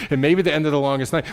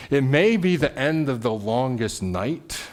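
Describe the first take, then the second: First: Quick and a little louder, pressing on; preacher speeding up to turn toward hope; fast, driving. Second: Preacher slowly stating the dark night; slow and weighty. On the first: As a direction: rush it forward with energy. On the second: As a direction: lay it down slowly and gravely. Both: Shown as a demonstration.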